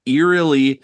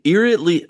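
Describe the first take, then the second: First: Said in the usual way. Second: "eerily" fumbled as "eer-it-ly", high; stumbled word. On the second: Real, not acted. Game master retrying a fumbled word, stumbled "eerily". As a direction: trip on "eerily", adding a t sound. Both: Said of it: "oh God".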